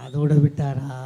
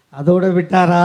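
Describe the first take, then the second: First: Said in the usual way. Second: அதோட விட்டாரா? repeated with more punch, weight on விட்டாரா; louder repeat. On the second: Shown as a demonstration. Speaker repeating his question to the crowd, louder and with weight on விட்டாரா. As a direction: push the question harder the second time, leaning on விட்டாரா.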